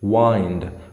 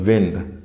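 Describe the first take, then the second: First: The vowel is a long 'eye' sound. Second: The vowel is a short 'ih' sound. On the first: It means to wrap around. "दूसरा word है same, वाइंड का मतलब होता है लपेटना" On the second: It means moving air. "विंड का मतलब होता है हवा"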